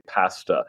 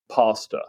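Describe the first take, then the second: First: Pasta said the British way, short a as in cat; British-style "pasta", first vowel short and flat as in cat; British pronunciation. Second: Pasta said the American way, long open ah in first syllable; American-style "pasta", first vowel as in father; American pronunciation. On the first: British expat showing host his dropped habit, pasta with short British a. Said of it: "I'm not gonna bother to say". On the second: British expat showing host his American habit, pasta with open ah. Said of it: "I'm just gonna say reflexively". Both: Shown as a demonstration.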